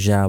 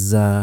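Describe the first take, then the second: First: জা with a Bengali j, no long buzz; mispronounced জা. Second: জা with a long buzzing z, like a vibrating phone; correct buzzing জা. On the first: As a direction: say জা short, as a Bengali j. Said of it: "এই তিনটার কোনোটাই সঠিক নয়". (গুঞ্জন ছাড়া বাংলা জা) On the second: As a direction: buzz the z of জা before the vowel. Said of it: "একমাত্র সঠিক উচ্চারণ হলো". (মোবাইল ভাইব্রেটের মতো জা) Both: Shown as a demonstration.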